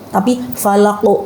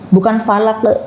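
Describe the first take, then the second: First: The final q bounce is rounded. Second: The final q bounce is unrounded. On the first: The speaker calls it right. "Jadi ada monyong gitu" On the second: The speaker calls it wrong.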